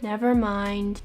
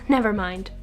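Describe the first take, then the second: First: It is said slowly with a low falling tone. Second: It is said brightly with a positive tone. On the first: The speaker is bothered or very upset. "slowly with a falling low tone" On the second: It doesn't matter, just forget it. "with a smile and a positive tone"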